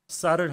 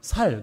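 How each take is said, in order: First: The word begins with a tense s sound. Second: The word begins with a plain s sound. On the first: The speaker calls it right. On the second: The speaker calls it wrong.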